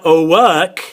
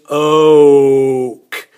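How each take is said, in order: First: The word is said with an added A vowel. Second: The word is said with only the O vowel. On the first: The speaker calls it wrong. "it's not oak" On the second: The speaker calls it right. "it's oak"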